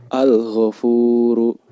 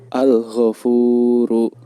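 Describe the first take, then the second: Both takes have the same delivery.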